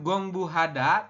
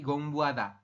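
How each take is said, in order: First: The middle h sound is clearly pronounced. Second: The middle h sound is faint or dropped. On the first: The speaker calls it wrong. "Bukan gongbu hada" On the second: The speaker calls it right. "hanya itu samar atau hampir tidak jelas"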